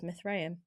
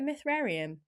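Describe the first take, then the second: First: No extra r sound comes before the ending. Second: An extra r sound comes before the ending. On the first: The speaker calls it right. "That says Mithraeum" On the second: The speaker calls it wrong. "I was saying this wrong for years"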